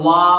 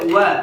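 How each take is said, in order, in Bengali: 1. 'wa' ধ্বনিটি মোটা ও ভারী করে বলা হয়। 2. 'wa' ধ্বনিটি পাতলা ও হালকা করে বলা হয়। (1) "অনেকে বলে ওয়া, এরকম না" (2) "উচ্চারণটা হবে ওয়া"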